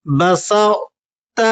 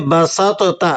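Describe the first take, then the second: First: بسطت very slow, ط merged into ت with only its heavy colour kept; بسطت read correctly with itbaq; correct recitation. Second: بسطت with the ط pronounced as a separate full sound; بسطت misread, ط not merged; wrong reading. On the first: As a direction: say بسطت as basat, no separate ط sound. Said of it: "وہ کس طرح سے؟". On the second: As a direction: say بسطت as basatota, wrongly spelling out ط. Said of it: "یہ ٹھیک نہیں ہے". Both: Shown as a demonstration.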